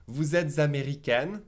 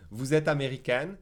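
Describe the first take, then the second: First: Z sounded in both links of "vous êtes américaine"; careful "vous êtes américaine", linking every word; careful liaisons. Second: "vous êtes américaine" quicker, linking only vous to êtes; faster, fewer liaisons. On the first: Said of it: "I'll make the first liaison". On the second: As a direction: drop the z between "êtes" and "américaine". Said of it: "If I say a little faster". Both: Shown as a demonstration.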